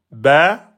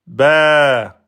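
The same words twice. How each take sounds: First: "Ba" on one beat, rising; short rising "Ba"; short vowel. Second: "ba" held over two beats; long vowel. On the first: Teacher timing one beat, short "Ba". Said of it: "un temps". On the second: Teacher timing pen up and down, long "ba". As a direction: stretch "ba", falling at the end. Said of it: "je monte et je descends". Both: Shown as a demonstration.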